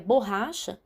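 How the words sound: It is said with Portuguese pronunciation. The speaker calls it wrong. "pensa que é borracha, né, que é a nossa palavra"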